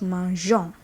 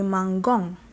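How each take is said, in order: First: The g is a soft j sound. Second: The g is a hard g sound. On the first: The speaker calls it right. "to have the J sound, we leave the E" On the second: The speaker calls it wrong. "if we remove the E, it will be mangong"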